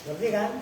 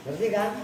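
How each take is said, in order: No difference in how they are said.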